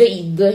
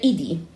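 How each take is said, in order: First: It is said as a single word. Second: It is said as two separate letters. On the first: The speaker calls it wrong. "se voi lo lasciate così vi legge id" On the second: The speaker calls it right. "io ho messo i spazio d e vi legge id"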